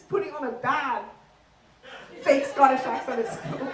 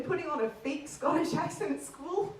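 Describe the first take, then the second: First: Badly faked, overdone Scottish accent. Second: Practised put-on Scottish accent; fake Scottish accent. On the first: Comic mocking best friend at school, in bad Scottish accent. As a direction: mangle the Scottish accent on purpose. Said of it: "wasn't very good". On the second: Shown as a demonstration. Comic confessing school embarrassment, in put-on Scottish accent. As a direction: do your usual stage Scottish. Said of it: "I spoke in this accent".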